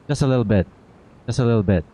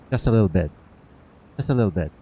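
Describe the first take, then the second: No difference in how they are said.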